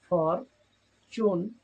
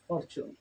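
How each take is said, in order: First: ফর, চুন as two drawn-out beats, pause between; split into syllables. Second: Said in the usual way. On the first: Shown as a demonstration. Teacher showing learners how to divide ফর, চুন, slow and separated. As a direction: say ফর, চুন slowly, one loud syllable at a time. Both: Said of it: "syllable ভাগ করে করে উচ্চারণ".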